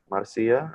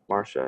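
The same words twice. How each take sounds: First: "Marcia" with an S sound, MAR-see-uh. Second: "Marcia" said like Marsha, ending in shuh. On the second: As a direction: say "Marcia" in two syllables, MAR-shuh. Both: Shown as a demonstration. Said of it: "help me with the pronunciation".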